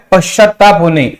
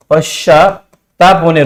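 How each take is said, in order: First: Said in the usual way. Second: पश्चात्ताप slowed and split in two, पश्चा, then ताप; slow dictation. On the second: Shown as a demonstration. Teacher repeating a meaning for students, slow dictation. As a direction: say पश्चात्ताप होणे slowly, in separate pieces.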